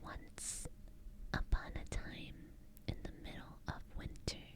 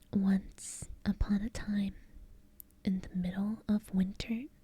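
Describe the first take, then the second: First: It is whispered without full voice. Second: It is spoken in a soft low voice. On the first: The speaker calls it wrong. "I'm gonna try whispering for this story" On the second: The speaker calls it right. "let's just keep doing a low voice"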